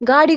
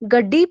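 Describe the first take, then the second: First: The vowel is long, with a single middle consonant. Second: The vowel is short, with a doubled middle consonant.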